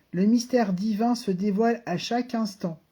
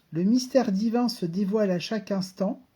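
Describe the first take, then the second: No difference in how they are said.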